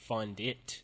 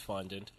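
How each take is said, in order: First: The last syllable is pronounced 'dit'. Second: The last syllable is pronounced 'dant'. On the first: The speaker calls it wrong. "I had been saying it wrong throughout the entire episode. I was saying fondit" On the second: The speaker calls it right. "how she had spelled the word fondant"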